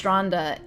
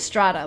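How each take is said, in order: First: It is said with an n before the d. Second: It is said without an n before the d. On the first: The speaker calls it right. "it's stranda in Norwegian" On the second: The speaker calls it wrong. "I kept saying strada like in German"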